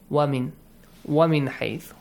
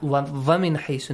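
First: The first word begins with a w sound. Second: The first word begins with a v sound. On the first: The speaker calls it right. "This is wa, the sound of w in Arabic" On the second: The speaker calls it wrong. "make sure it's not va, va, va min حَيْثُ, no. We don't have va in Arabic"

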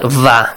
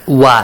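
First: It starts with a buzzing v sound. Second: It starts with a rounded w sound. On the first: The speaker calls it wrong. "not va" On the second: The speaker calls it right. "it should be wa"

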